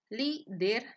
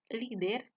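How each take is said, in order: First: "líder" split in two, loud stressed "lí"; stress on first syllable. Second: Said in the usual way. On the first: Shown as a demonstration. Teacher showing the stressed syllable, "líder" loudly split up. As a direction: punch the "lí" of "líder", then "der" apart. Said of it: "se encuentra en la penúltima sílaba". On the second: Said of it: "Veamos algunos ejemplos".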